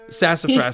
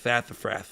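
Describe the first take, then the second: First: The s sounds are pronounced as plain s. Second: The s sounds are pronounced as th.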